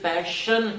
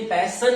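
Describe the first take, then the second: First: The middle consonant is an sh sound. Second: The middle consonant is a plain s sound. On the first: The speaker calls it right. "ये पैशन है" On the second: The speaker calls it wrong. "ये पैसन नहीं है"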